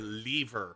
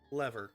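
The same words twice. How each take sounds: First: The word is said in a British accent. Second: The word is said in a non-British accent.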